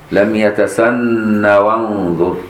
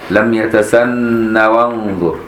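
No difference in how they are said.

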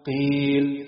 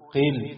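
First: The long vowel is held for two counts. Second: The long vowel is cut short. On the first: The speaker calls it right. "نفس الكلمات بعد تطبيق المد الطبيعي" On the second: The speaker calls it wrong. "هقرأ 3 كلمات فيهم مد طبيعي بس من غير ما مد"

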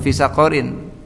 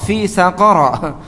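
First: The last word ends in -in. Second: The last word ends in a plain -a. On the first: The speaker calls it wrong. "bukan fi saqarin" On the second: The speaker calls it right. "Dia gharu munsharif"

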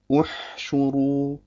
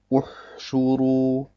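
First: The h is said with unrounded, neutral lips. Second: The h is said with rounded, pushed-forward lips. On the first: The speaker calls it right. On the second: The speaker calls it wrong.

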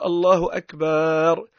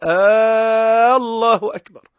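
First: A long a is added before the final r. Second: The opening vowel of the first word is lengthened. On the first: The word comes to mean drums. "يحط ألف بينها وبين الراء" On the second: It sounds like asking whether God is greatest. "يصير كأنه هو قاعد يسأل يستفهم هل الله أكبر أم لا"

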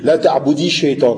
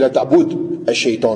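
First: An 'i' vowel links the verb to the next word. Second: The verb ends without a vowel before the next word. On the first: The words are joined in connected speech. "Quand on fait la liaison, c'est la même règle... on met une kasra" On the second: This is the underlying form before linking. "à l'origine, c'est la ta'boud à shaitan avec une soukoun"

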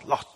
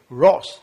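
First: The word begins with an l sound. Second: The word begins with an r sound. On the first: The speaker calls it wrong. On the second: The speaker calls it right.

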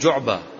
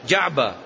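First: The first vowel sounds like 'u'. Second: The first vowel sounds like 'a'. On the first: The speaker calls it wrong. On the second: The speaker calls it right.

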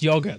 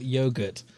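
First: Yogurt is pronounced the British way. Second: Yogurt is pronounced the American way. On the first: The speaker calls it right. "it's pronounced yogurt" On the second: The speaker calls it wrong. "not yogurt, you crazy Americans"

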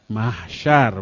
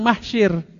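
First: The second syllable has the vowel a. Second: The second syllable has the vowel i. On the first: The speaker calls it right. "Mahsyar bukan mahsyir" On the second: The speaker calls it wrong. "bukan mahsyir"

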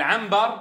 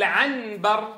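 First: The n becomes a hidden nasal m sound. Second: The n before the b is said clearly. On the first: The speaker calls it right. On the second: The speaker calls it wrong.

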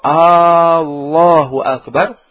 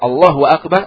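First: The opening vowel is drawn out long. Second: The opening vowel is short. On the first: It asks whether God is great. The speaker calls it wrong. "kalau dipanjangkan, maknanya istifham, pertanyaan" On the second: It states that God is great. The speaker calls it right. "artinya Allah Maha Besar"

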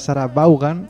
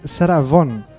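First: The name is read out with Spanish pronunciation. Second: The name is said with English pronunciation. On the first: This is how it reads in Spanish spelling. "En castellano leído sería Sarah Vaughan" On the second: This is how the name is really said. "en realidad su nombre es [name]"

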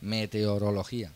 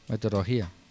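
First: The word is said in its careful standard form. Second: The word is said in its common everyday form. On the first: The speaker calls it right. "así te enseña el lingüista para que lo digas bien" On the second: The speaker calls it wrong. "pronunciamos mal la palabra meteorología. Decimos meteorología"

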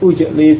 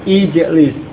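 First: The word begins with a 'u' vowel. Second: The word begins with an 'i' vowel. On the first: The speaker calls it wrong. "bukan ujlis" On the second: The speaker calls it right. "harokat hamzah wasal juga kasrah"

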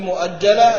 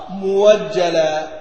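First: A glottal stop is heard in the middle. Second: A w glide replaces the glottal stop.

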